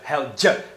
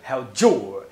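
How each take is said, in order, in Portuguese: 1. O d se funde com um som de j antes de 'ya'. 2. O d e a palavra completa 'your' são ditos com clareza.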